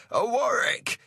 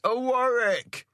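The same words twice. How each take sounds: First: High ringing call across the water; a high hailing cry. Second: Slow, high hail stretched across the water; a slow drawn hailing cry; drawn-out call. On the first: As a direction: hail the other ship from afar. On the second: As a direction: stretch the call out long over the waves. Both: A narrator's reading. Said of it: "he cries".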